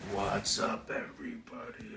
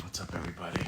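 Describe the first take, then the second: First: Soft unvoiced whisper of the greeting; playful whisper. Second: Said in the usual way. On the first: Shown as a demonstration. Streamer whispering a teasing hello to viewers. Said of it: "same greeting redone whispered". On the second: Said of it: "greets viewers normally, then whispering".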